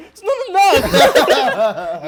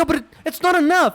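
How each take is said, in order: First: Slow, high, loud laughing mimic; mocking echo. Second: High, loud cry of protest; emotional outburst. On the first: Friend mocks his emotional outburst, laughing. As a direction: stretch it out, teasing his outburst. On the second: Retold or imitated. Refusing the buyer's short cash, loud and upset. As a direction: shout it, voice straining with upset. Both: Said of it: "you can hear he's getting emotional".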